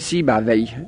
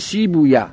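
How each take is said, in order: First: The name is said the Arabic way. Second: The name is said the Persian way. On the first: "میگه" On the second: "ما فارس ها میگیم"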